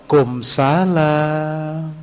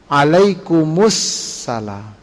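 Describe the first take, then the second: First: Only the last part, kumsalam, is said. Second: The whole reply is said, linked with -us-. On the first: The speaker calls it wrong. "Itu tidak sesuai dengan sunnah" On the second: The speaker calls it right. "kembalikan alif lamnya"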